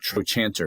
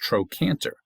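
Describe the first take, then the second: First: The second syllable begins with a ch sound. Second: The second syllable begins with a k sound. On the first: The speaker calls it wrong. "That's not trochanter" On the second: The speaker calls it right. "It's a k"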